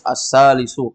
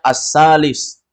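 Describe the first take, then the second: First: The word ends with a short final u vowel. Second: The word ends on a consonant, no final vowel. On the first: This is the full form as written. "kalau ditulis as-salisu" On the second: This is how it is read aloud at a stop. "kita bacanya as-salis"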